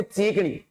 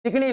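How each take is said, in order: First: चीकनी with first "ee" stretched; children's long-vowel चीकनी. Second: चिकनी with a short first "i"; standard short-vowel चिकनी. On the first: Retold or imitated. Teacher correcting to kids' version, चीकनी with long ची. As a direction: draw out the ची in चीकनी. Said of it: "बोलते चीकनी". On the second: Shown as a demonstration. Teacher contrasting with kids' version, चिकनी with short चि. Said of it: "चिकनी नहीं है, बोलते चीकनी".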